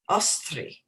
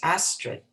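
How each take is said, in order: First: The name is said Norwegian-style with a rolled R. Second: The name is said the plain English way.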